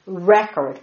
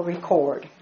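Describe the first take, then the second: First: Record said REK-erd, first syllable stressed; noun pronunciation of record. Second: Record said ri-KORD, second syllable stressed; verb pronunciation of record. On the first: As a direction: put the weight on REK in record. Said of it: "record or record". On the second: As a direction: put the weight on KORD in record. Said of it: "The word is record". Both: Shown as a demonstration.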